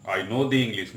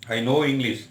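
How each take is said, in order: First: I know the English with "the" as the most prominent word, falling after it; stress on the. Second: Said in the usual way. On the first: Shown as a demonstration. Teacher stressing the article to show the change in meaning. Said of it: "मैं अंग्रेजों को जानता हूँ". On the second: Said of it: "मैं अंग्रेजी जानता हूँ".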